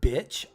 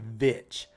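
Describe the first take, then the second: First: The word starts with a B sound. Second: The word starts with a V sound. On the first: "instead of saying bitch" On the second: "like with a V"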